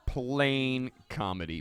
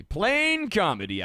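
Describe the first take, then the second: First: Said in the usual way. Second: High, louder, slow exclamation; belting the verdict; emphatic proclamation. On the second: Shown as a demonstration. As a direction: announce it like a punchline. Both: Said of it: "repeats the phrase twice".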